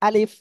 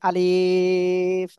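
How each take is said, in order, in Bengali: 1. শব্দটি ছোট করে, দ্রুত বলা হয়েছে। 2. শব্দটি ধীরে ধীরে টেনে বলা হয়েছে। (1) "পড়তে হবে কেমন, দ্রুত।" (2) "অনেকে পড়ে আলিফ, আমরা এরকম টেনে পড়বো না"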